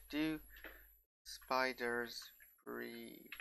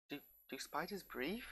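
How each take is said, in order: First: "Do", "spiders", "breathe" set apart by long pauses; portentous question. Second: Host asks viewers about spiders, puzzled, "breathe" rising high; puzzled question. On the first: Host repeats Doctor Who's big question, portentously, pausing before "spiders" and "breathe". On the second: Host wondering aloud about spiders, softly lifting "breathe" into a question. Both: Pretend.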